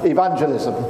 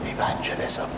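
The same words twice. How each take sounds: First: The word is said loudly. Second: The word is said quietly. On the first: The subject is something to proclaim boldly. The speaker calls it right. "But I'm going to say it louder" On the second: The subject is something people are shy about. The speaker calls it wrong. "that word that we as Christians like to say quietly"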